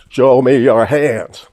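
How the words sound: It is said in a shaky, nervous Barney Fife voice.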